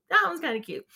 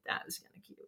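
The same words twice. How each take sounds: First: Said in the usual way. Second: Soft whispered aside. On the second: Real, not acted. Host admitting to herself the joke was cute, whispering. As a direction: whisper it like a private thought.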